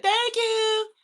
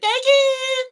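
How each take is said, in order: First: High, sing-song thank you of his mom; high church-lady thank you; mom's high thank you. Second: Even higher, louder squealed thank you; very high, loud childish thank you; baby echoing mom. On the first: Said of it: "My mom be like". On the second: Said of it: "And I'd be like". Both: Retold or imitated.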